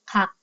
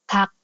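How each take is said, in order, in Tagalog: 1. Nagsisimula ang salita sa walang-tinig na k. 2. Nagsisimula ang salita sa walang-tinig na k.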